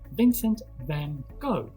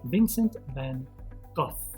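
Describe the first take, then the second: First: The surname ends like the word go. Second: The surname ends with an f sound. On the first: "in America, in Australia ... They call him Vincent van Gogh. ... as in go home" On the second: "in British English, people say Vincent van Gogh. They say the F sound"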